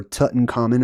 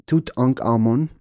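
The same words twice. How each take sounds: First: "Tutankhamun" run together as tut-n-KAH-men; pronunciation variant. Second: "Tutankhamun" in separate parts, toot-ankh-AH-moon; pronunciation variant. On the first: Teacher offering another version, Tutankhamun run together. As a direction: say "Tutankhamun" the familiar joined-up way. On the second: Teacher sounding out the king's name, Tutankhamun in parts. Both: Shown as a demonstration. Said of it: "or however you wanna say it".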